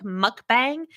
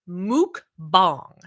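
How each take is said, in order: First: MUKBANG said as "muck-bang"; as it looks. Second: "mukbang" said slowly as "mook-bahng"; correct pronunciation. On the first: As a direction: read "mukbang" as spelled, "MUCK-bang" with a short u and flat English a. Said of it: "even though it looks like". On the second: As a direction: sound out MUKBANG in two slow parts, "mook... bahng". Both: Shown as a demonstration.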